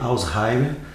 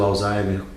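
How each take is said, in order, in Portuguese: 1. O nome é pronunciado com pronúncia alemã. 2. O nome é pronunciado com pronúncia portuguesa. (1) "inclusive a pronúncia é sempre Alzheimer" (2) "a gente hoje utiliza o Alzheimer como uma forma é, nossa"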